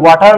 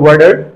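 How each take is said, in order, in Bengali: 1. মাঝের ব্যঞ্জনটি একটি স্পষ্ট t ধ্বনি। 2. মাঝের ব্যঞ্জনটি d এর মতো শোনায়। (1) "ওয়াটার না বলে" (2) "তারা বলে ওয়াটার"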